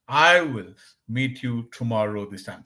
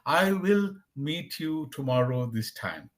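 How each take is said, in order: First: "I will" is contracted to one syllable. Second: "I will" is said as two full words. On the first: The speaker calls it right. "They'll say" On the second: The speaker calls it wrong. "The native speaker doesn't speak in this way"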